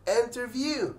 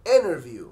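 First: The t after the n is clearly pronounced. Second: The t is dropped, sounding like innerview. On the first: "احنا بننطقها في العادي interview" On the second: "الامريكان بينطقوها interview"

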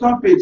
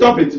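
First: It is said softly and soothingly. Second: It is said sharply and firmly. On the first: The child is being pampered. "Before it was pampering" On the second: The child is being warned. "Now it becomes cautioning"

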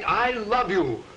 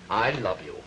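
First: It is said with heartfelt feeling. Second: It is said flatly, without feeling.

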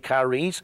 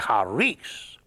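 First: The word starts with a hard k sound. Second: The word starts without a hard k sound. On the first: This is how English speakers say it. "we English speakers, we would say charis" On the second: This is how Greek speakers say it. "They drop the C and they say charis"

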